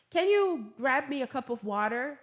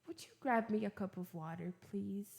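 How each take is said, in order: First: Plain-spoken, pushy request; blunt request. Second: Soft, gentle polite ask; softened, courteous request; polite, sweet request. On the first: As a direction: ask it bluntly, with no softening. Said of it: "ao invés de falar". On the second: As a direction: ask nicely and softly, easing off on please. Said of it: "mais educadinho, assim, mais bonitinho". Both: Shown as a demonstration.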